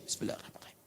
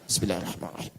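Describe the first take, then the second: First: It is said very quietly, barely audible. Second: It is said aloud, clearly audible.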